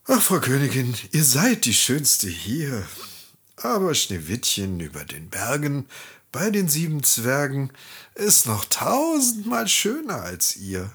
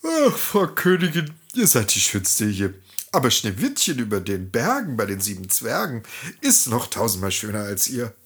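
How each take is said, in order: First: A lightly voiced magic mirror, matter-of-fact; an everyday mirror answer with little voicing; mirror speaking as usual. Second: Drowsy mirror answering through a yawn; a hint of a yawn in the mirror's voice; bored yawning mirror. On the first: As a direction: tell the queen the truth plainly as always. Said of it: "Der Spiegel sprach wie gewohnt". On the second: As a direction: sound bored of the old question. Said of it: "Der Spiegel gähnte leise".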